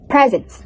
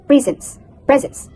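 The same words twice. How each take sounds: First: "presence" with a voiced Z, PREZ-ens; correct presence. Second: "presence" as Indonesian learners say it, S for Z; learners' mispronunciation. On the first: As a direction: model "presence" properly, buzzing Z. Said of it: "instead of presence". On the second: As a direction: imitate a learner's slip on "presence". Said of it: "many learners say". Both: Shown as a demonstration.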